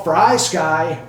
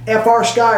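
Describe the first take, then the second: First: "Fry Sky" said as the single word fry, not spelled out; joke nickname. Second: Said in the usual way. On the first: Shown as a demonstration. Naming the radio brand as a joke, "Fry Sky" rhymes with fry. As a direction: say "Fry Sky" like frying food. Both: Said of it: "or what I call Fry Sky".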